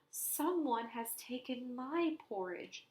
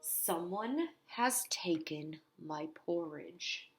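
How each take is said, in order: First: It is said in a medium-sized voice. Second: It is said in a big, deep voice.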